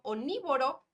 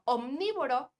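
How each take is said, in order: First: Only the n sound is pronounced, without m. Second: Both the m and n sounds are pronounced. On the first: The speaker calls it wrong. "O la N, por ejemplo" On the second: The speaker calls it right. "que es la pronunciación correcta"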